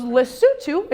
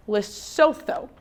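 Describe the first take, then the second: First: Lesotho said as le-SOO-too, smooth and sure; corrected pronunciation. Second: Lesotho slowly as lis-SO-tho with a questioning rise; mispronounced. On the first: Retold or imitated. Kid correcting teacher, saying Lesotho as le-SOO-too with confidence. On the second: Shown as a demonstration. Teacher retelling her first try, slowly saying Lesotho as lis-SO-tho with a rise. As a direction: sound out Lesotho haltingly, unsure, rising at the end. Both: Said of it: "He very politely corrects my pronunciation".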